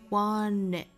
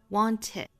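First: The t is dropped and n links to it. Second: The t is fully pronounced before it. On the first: "把这个 t 省掉了，直接 n 跟后面的元音做连读了" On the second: "英音里面的这个 want it"

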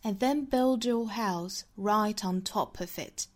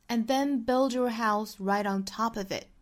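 First: It is read in a British accent. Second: It is read in an American accent.

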